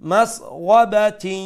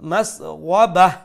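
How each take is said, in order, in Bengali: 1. শব্দটি t ধ্বনি দিয়ে শেষ হয়। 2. শব্দটি h ধ্বনি দিয়ে শেষ হয়। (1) "কন্টিনিউ করার বেলা আমরা পড়বো" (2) "স্টপ করলে"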